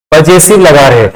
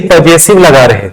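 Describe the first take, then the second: No difference in how they are said.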